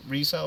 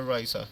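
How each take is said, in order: First: "Risa" with an ee in the first syllable; Risa as REE-sa. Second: "Risa" with an eye sound first; Risa as RYE-sa. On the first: Coach asking a player's name, "Risa" said REE-sa. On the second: Coach asking a player's name, "Risa" said RYE-sa. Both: Real, not acted. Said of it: "how do I pronounce your name".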